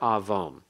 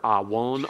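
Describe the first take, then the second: First: A v sound is heard between the vowels. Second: A w sound is heard between the vowels. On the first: The letter is read as a consonant, as in modern Hebrew. "a W or a V here" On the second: The letter is read as a consonant, as in classical Hebrew. "a W or a V here"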